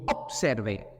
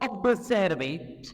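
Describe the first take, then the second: First: The consonant before the s sounds like p. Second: The consonant before the s sounds like b. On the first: The speaker calls it right. "mais on dit" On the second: The speaker calls it wrong. "On ne doit pas dire"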